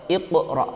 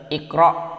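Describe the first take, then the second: First: The q sound has a clear bouncing release. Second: The q sound has no bouncing release. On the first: The speaker calls it right. "iqra harus dibaca iqra, ada q" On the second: The speaker calls it wrong. "tidak boleh dibaca"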